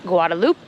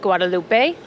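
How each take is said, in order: First: The name is pronounced with French sounds. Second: The name is pronounced with Spanish sounds. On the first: This is how it is named under France today. "now that it is an overseas department of France, it is pronounced" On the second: This is how it was named under Spain. "the Spanish pronunciation"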